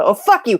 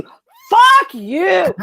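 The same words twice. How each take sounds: First: First, milder fuck-you of two; slightly louder opening jab of an outburst; Randall. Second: High, loud exploding fuck-you; Randall. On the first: Movie fan quoting Randall after the fight, mildly irate. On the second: Movie fan quoting Randall after the fight, furious shout. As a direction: blow up on the second one, much higher. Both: Acted. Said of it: "the Randall double fuck you".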